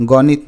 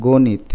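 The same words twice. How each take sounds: First: গণিত with an open first vowel, "gawnit"; slow, careful গণিত as gaw-nit; not this way. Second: গণিত with a close o, "gonit"; slow, careful গণিত as go-nit; gently rounded vowel. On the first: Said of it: "গণিত না, গণিত". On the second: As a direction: soften the first vowel of গণিত to "o". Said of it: "একটু আলতো করে বলে দেখো". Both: Shown as a demonstration.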